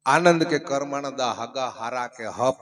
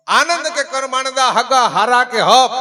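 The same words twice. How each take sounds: First: Slow, low verse recital; couplet recitation. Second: High, loud declaimed verse; full-voiced couplet recitation. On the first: Acted. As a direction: intone the couplet slowly and low. (ધીમેથી, નીચા સૂરે દુહો) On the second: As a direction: belt the couplet out to the crowd. (ઊંચા, બુલંદ અવાજે દુહો)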